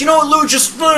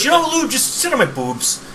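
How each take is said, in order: First: High, scolding wife impression; friend's wife scolding Lou, high pitched; mock wife scolding. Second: Mock wife mishearing. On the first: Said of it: "she's like". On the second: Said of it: "it sounded like she goes".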